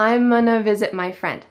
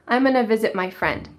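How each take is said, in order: No difference in how they are said.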